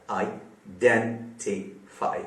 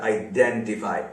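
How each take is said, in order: First: identify broken into four slow syllables. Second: Said in the usual way. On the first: Shown as a demonstration. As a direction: break identify apart, pausing after each syllable. (Identify को चार हिस्सों में रुक-रुक कर) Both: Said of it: "चार syllable वाला".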